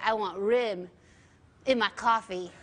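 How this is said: The word 'room' sounds close to 'rim'. "you would say"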